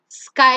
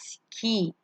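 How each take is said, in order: First: The word ends with an 'eye' sound. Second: The word ends with an 'ee' sound. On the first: The speaker calls it right. "you don't have a vowel there, and hence you say it as sky" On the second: The speaker calls it wrong. "and not ski"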